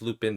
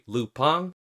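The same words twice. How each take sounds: First: The name is said with an English pronunciation. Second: The name is said with a French pronunciation. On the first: "for most English speakers, they're gonna think of it as" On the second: "for French people and other people abroad, it is actually"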